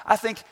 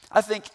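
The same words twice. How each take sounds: The two takes are said the same way.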